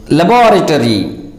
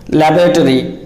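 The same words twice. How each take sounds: First: LABORATORY stressed on BOR, "la-BOR-uh-tree"; correct pronunciation. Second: LABORATORY as "LAB-ruh-tory", stressed at the start; mispronunciation. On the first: Teacher models laboratory for learners, pronounced "la-BOR-uh-tree". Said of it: "it is pronounced as". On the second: Teacher warns learners off laboratory mispronounced "LAB-ruh-tory". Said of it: "It is not pronounced as". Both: Shown as a demonstration.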